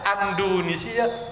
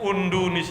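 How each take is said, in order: First: The word starts with an a vowel. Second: The word starts with a u vowel.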